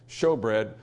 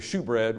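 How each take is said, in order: First: The first word has an 'oh' vowel, like show. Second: The first word has an 'oo' vowel, like shoe. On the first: The speaker calls it right. "we say show bread" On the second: The speaker calls it wrong. "we don't say shoe bread"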